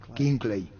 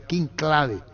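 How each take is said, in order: First: The name is said with English sounds. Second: The name is read with Spanish letter sounds. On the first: This is the later way, adapted to English. "Después con el tiempo, King Clay" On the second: This was the earlier way of saying the name. "primero se le pronunciaba King Clave"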